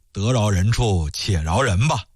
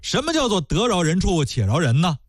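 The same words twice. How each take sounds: First: Low, slow soothing advice; coaxing magistrate. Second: Indignant retort. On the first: Magistrate urges the widow to forgive, low and coaxing. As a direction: talk her down gently, lower. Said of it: "这岳知县呢就劝". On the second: Scholar throws the phrase back. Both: Acted.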